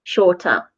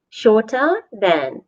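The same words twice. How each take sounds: First: Said in the usual way. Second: Said slowly and clearly, word by word; slow it down for the class; slow model phrase. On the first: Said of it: "so we add E R". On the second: Shown as a demonstration. Teacher slowly modelling the phrase for learners.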